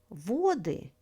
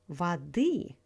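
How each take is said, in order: First: The stress is on the first syllable. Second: The stress is on the second syllable. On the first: It is the plural, meaning waters. "Stress falls on the first syllable" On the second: It is the genitive, meaning of water. "Stress falls on the second syllable"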